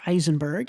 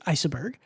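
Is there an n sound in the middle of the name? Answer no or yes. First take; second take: yes; no. First: The name has an n sound before the b. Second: The name has no n sound before the b. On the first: The speaker calls it wrong. "I almost said it with an N in there. It is not Eisenberg" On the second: The speaker calls it right. "It is Iceberg"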